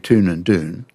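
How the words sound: It is said with an American accent.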